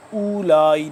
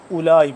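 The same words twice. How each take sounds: First: اولائی with the opening "oo" drawn out; wrong long first vowel. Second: اولائی with a quick short "u", waw silent; short first vowel. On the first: Teacher showing learners the mistake, opening vowel held. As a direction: lengthen the first vowel of اولائی as if waw counted. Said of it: "اس کو ہم اولائی نہیں پڑھیں گے". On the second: Teacher showing learners the correct reading, opening vowel short. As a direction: keep the opening of اولائی short, then "laa-i". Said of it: "اس کو ہم اولائی پڑھیں گے". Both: Shown as a demonstration.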